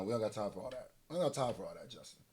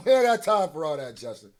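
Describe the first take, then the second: First: Low, soft brush-off; quiet dismissal. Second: Amused, raised-voice brush-off; louder dismissal. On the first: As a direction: say it under your breath, lower. Waving off the intro, muttered repeats. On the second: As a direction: wave it off louder, after a laugh. Same words repeated louder after laughing. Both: Real, not acted.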